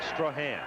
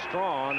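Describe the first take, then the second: First: The name is said as 'Strahan'. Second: The name is said as 'Strawn'. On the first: This is how the player himself says it. The speaker calls it right. "he calls it Strahan" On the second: This is how others with this spelling say it. The speaker calls it wrong. "I was calling him Strawn"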